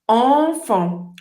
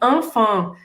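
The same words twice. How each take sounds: First: The nasal vowel has rounded lips. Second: The nasal vowel has spread, smiling lips. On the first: The speaker calls it right. "só que com uma boca de O" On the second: The speaker calls it wrong. "Muita gente fala assim"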